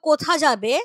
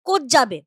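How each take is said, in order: First: The first word is said in full. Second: The first word's final vowel is dropped.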